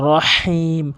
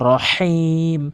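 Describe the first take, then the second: Both takes have the same delivery.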